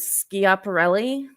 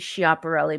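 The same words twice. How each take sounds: First: The name begins with an 'sk' sound. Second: The name begins without an 'sk' sound. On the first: "I'm going to go with the Ska" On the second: "Could be"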